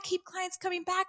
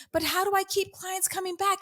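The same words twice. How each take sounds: First: Softer, higher mocking repeat; mocking echo. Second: Mocking a pleading client, higher; whiny client question. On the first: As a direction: echo it back under your breath, mockingly. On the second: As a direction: parrot the anxious coach, pitched higher. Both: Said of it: "people say to me".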